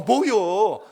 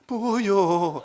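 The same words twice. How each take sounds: First: It is said in a surprised tone. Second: It is said in a frightened tone. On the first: "놀랐을 땐 그러잖아요" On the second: "무서울 때도 그러잖아요"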